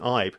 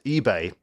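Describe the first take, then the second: First: The name is pronounced in an anglicised way. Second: The name is pronounced in a Nigerian way. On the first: This is how the player wanted his name said. "he wanted his name to be Jordan Ibe" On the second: This is how the name would be said in its heritage country. "it would have been pronounced eBay in Nigeria"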